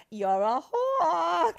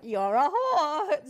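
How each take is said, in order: First: Put-on high, loud, slow drunken snarl; drunken rage line. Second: High, loud, slow mock drunken jab; playful drunken insult. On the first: Actress replaying her drunken stage line, loud and slow. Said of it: "one of my favorite lines I had". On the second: Friends teasing each other, loud laughing mock insult. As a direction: toss it with a laugh like an old stage joke. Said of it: "we still, like, call each other".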